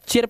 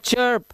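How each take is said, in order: First: The vowel sounds like the i in sit. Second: The vowel sounds like the u in fur. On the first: The speaker calls it wrong. "चिर्प नहीं है ये" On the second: The speaker calls it right. "ये चर्प है"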